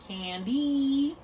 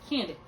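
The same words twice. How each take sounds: First: The word ends with an ee vowel. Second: The word ends with a short ih vowel. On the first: This is the usual American way. "a lot of times now we say candy" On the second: This imitates an English speaker. "instead of making the E sound, we're going to give it an I sound"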